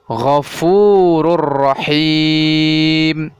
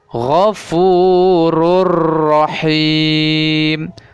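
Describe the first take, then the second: First: The n merges into a doubled r sound. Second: The n merges into a doubled r sound.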